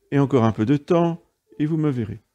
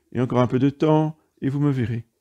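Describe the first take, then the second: The two takes are said the same way.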